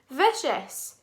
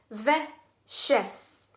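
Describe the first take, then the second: First: Said in the usual way. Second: "Vicious" split in two with a clear pause; syllable by syllable. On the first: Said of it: "Two syllable word". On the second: Shown as a demonstration. Teacher shows children the syllables, "Vicious" said in two separate parts. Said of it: "syllables of that word".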